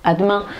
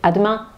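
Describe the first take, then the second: The two takes are said the same way.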